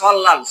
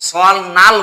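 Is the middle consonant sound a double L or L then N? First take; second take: double L; L then N. First: The middle is a long double L. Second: The middle is an L followed by N. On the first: The speaker calls it right. "লয় লয় যুক্ত উচ্চারণ করবো" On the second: The speaker calls it wrong. "সল নাল বলবো না"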